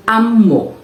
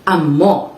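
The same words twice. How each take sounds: First: "amo" stressed on the opening "a"; first-syllable stress. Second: "amo" stressed on the final "mo"; second-syllable stress. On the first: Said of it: "stressed on the first syllable". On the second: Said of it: "stressed on the second syllable". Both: Shown as a demonstration.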